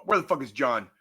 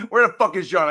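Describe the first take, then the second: First: Said in the usual way. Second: Loud yell at the missing friend; angry yell. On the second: Real, not acted. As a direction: yell it out, really pissed off. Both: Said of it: "I need to yell at somebody".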